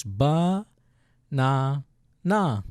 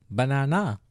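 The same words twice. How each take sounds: First: "ba, na, na" as separate drawn-out syllables. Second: Said in the usual way. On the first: Shown as a demonstration. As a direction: sound out "ba", "na", "na" with gaps between. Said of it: "look at the first syllable". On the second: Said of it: "Pretty simple".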